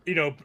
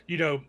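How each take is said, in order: Both takes have the same delivery.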